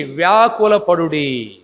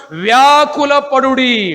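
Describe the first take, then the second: First: వ్యాకుల పడుడి dropped lower and drawn out; low slow echo. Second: Slow, raised వ్యాకుల పడుడి with each syllable stretched; slow pleading call of వ్యాకుల పడుడి; drawn-out emphasis. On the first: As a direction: sink the repeat of వ్యాకుల పడుడి slowly. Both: Shown as a demonstration. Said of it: "వ్యాకుల పడుడి repeated slowly".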